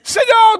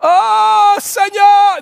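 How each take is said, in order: First: It is blurted out quickly. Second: It is drawn out slowly.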